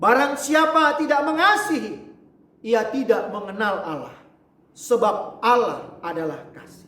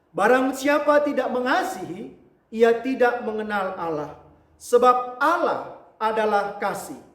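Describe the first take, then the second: No difference in how they are said.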